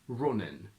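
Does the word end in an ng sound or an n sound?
n. The word ends with a plain n sound.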